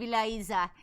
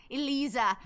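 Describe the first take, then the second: First: Eliza said "ee-LIE-za"; long I pronunciation. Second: Eliza said "ee-LEE-za"; long EE pronunciation. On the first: Streamer naming the game, Eliza as "ee-LIE-za". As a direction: say Eliza with an "eye" vowel. Tries two pronunciations of the name. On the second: Streamer retrying the game's name, Eliza as "ee-LEE-za". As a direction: say Eliza with an "ee" vowel. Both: Acted.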